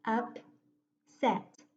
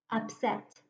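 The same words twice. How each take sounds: First: "Upset" broken as Up, long pause, set; split into syllables. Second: Said in the usual way. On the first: Shown as a demonstration. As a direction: say "Upset" in two separate chunks: Up... set. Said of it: "going to break the word between those two consonants". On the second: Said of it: "now I'll read it".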